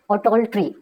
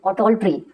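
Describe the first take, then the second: No difference in how they are said.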